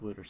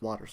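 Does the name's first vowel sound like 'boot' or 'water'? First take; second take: boot; water. First: The first vowel sounds like in 'boot'. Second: The first vowel sounds like in 'water'. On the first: The speaker calls it wrong. "not Wooters. I keep trying to say Wooters" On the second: The speaker calls it right. "It's Waters"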